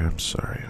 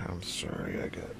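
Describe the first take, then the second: First: Said in the usual way. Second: Much softer breathy whisper of I'm sorry; hushed whisper; whispered apology. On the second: Shown as a demonstration. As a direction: drop to a bare whisper, as if not to be overheard.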